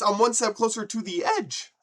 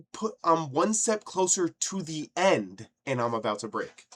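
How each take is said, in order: First: High, loud demonstration of the right lyric; emphatic lyric correction. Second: Sung, imitating the singer's botched lyric. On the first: Shown as a demonstration. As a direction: belt the line out, landing on "edge". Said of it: "Those ain't the words". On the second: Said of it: "bro is going".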